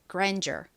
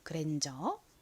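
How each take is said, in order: First: It is said with English sounds and an r. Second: It is said with Korean sounds, no final r. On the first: "영어권 국가에서도 사용하는 단어이니까 같이 발음해 볼게요" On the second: "한국식으로는 grandeur 이렇게 리을 받침을 넣지 않고 보통 그랜저라고 읽죠"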